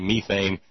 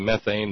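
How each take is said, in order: First: Methane is said in a British way. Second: Methane is said in a non-British way. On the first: "the Brits say methane" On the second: "you say methane"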